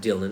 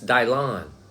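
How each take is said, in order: First: The name is said the ordinary, everyday way. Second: The name is said in an exaggerated, mock way. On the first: The speaker calls it wrong. "It's not Dylan" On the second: The speaker calls it right. "It's really the way you pronounce his name"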